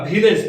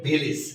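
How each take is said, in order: First: ভিলেজ with a clear e in the last syllable, like vilej; common wrong village. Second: ভিলেজ with a short i in the last syllable, like vilij; correct village. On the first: Teacher to students, showing the common mistake, ভিলেজ with -ej. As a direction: say ভিলেজ the usual Bengali way, ending in -ej. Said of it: "এর উচ্চারণটা কিন্তু আমরা ভিলেজ বলি". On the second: Teacher to students, giving the correct ভিলেজ with -ij. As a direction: say ভিলেজ the IPA way, ending in -ij. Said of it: "এর উচ্চারণটা হবে". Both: Shown as a demonstration.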